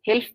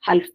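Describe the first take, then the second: First: The first vowel is an 'i' sound. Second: The first vowel is an 'a' sound. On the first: "हा पर जबर भी और जेर भी" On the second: "हा पर जबर भी और जेर भी"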